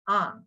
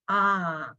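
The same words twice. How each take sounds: First: The vowel is short. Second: The vowel is held long. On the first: "a short tone" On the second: "long sound"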